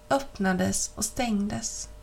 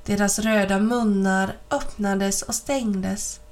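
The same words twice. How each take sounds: First: Slowed right down and softer; slow, fading repetition. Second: Said in the usual way. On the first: A narrator's reading. Narrator drawing out the nutcrackers' jaws, slow and soft. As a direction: let öppnades och stängdes creep out slowly, dropping away.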